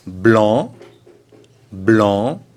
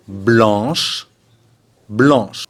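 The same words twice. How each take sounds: First: "Blanc" ending on the open nasal vowel; two rising "Blanc", c silent; masculine, silent C. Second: "Blanche" closing on a long sh sound; two separate "Blanche", sh sounded; feminine CH ending. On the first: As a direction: say each "Blanc" alone, rising, no final consonant. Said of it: "On ne prononce pas le C". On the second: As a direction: say each "Blanche" with a clear final sh. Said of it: "il faut ajouter un H et un E". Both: Shown as a demonstration.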